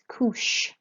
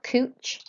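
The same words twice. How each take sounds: First: The CH is said like English sh. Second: The CH is said like English ch. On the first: The speaker calls it right. "a C H is like an S H sound in English" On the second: The speaker calls it wrong. "this is not couche"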